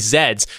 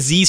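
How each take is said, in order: First: The word does not rhyme with breeze. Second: The word rhymes with breeze. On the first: "so they say Z's" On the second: "but they don't say Z's"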